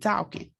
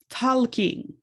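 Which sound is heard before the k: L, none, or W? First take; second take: W; L. First: A W sound is pronounced before the k. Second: An L sound is pronounced before the k. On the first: "Sometimes it's a W" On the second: "he is just talking with an L"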